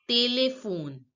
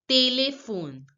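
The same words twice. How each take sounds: The two takes are said the same way.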